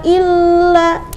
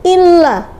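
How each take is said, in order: First: The doubled l is drawn out too long. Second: The doubled l is pressed briefly and firmly. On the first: The speaker calls it wrong. "terlalu lama jadi illa, illa, salah juga" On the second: The speaker calls it right. "Jadi harus ditekan"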